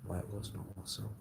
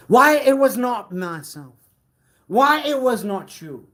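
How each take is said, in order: First: Fast, soft and low aside; hushed quick murmur; quick mutter. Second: Much higher and louder cry; loud indignant declaration; dramatic outburst. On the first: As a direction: rush it under your breath. Muttered then repeated loud. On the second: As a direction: fling it out in protest. Muttered line repeated as outburst. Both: Acted.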